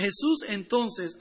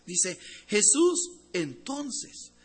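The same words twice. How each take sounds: First: Said in the usual way. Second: "Jesús entonces" said very slowly with a rise; stress on entonces. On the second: Shown as a demonstration. Preacher reading the verse to the church, very slow on "entonces". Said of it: "la palabra muy importante aquí".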